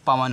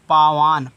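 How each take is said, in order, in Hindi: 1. स्वर छोटे हैं। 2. स्वर लंबे खिंचे हुए हैं। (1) "पावान नहीं पवन होता है" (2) "पी ए मतलब आक मात्रा हुआ"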